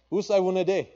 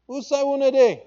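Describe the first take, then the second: First: "Usai wunade" called out higher and louder; calling in pidgin. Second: "Usai wunade" called much higher and louder; calling in pidgin. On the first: Preacher quoting God in pidgin, a raised call. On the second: Preacher quoting God in pidgin, a loud high call. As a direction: cry Usai wunade as a longing search. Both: Acted. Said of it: "is how we say it in pidgin".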